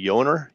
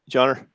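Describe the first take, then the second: First: The name begins with a Y sound. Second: The name begins with a J sound.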